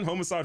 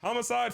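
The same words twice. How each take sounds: First: "homicide" with long "oh": HOH-muh-side; second pronunciation. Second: "Homicide" with open "ah": HAH-muh-side; first pronunciation. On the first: Streamer testing option two, "homicide" said HOH-muh-side. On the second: Streamer testing option one, "Homicide" said HAH-muh-side. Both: Shown as a demonstration. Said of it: "Is it homicide or homicide?".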